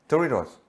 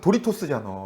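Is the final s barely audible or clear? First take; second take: barely audible; clear. First: The final s is barely audible. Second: The final s is clearly pronounced. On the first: This is how Americans say it. "뒤에 S가 거의 안 들려" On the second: This is how Koreans say it. "우리는 도리토스잖아"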